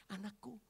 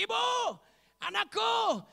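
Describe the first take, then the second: First: Soft, gentle acted address; tender address. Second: High, loud acted call. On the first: Jesus addressing the rejected woman as his child, tender. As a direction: say it softly, like a parent. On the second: Jesus calling to the frightened woman, loud high call. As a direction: call out in short separate bursts.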